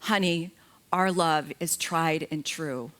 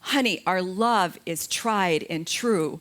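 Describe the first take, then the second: First: It is said at a normal, quiet volume. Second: It is said as loud as possible.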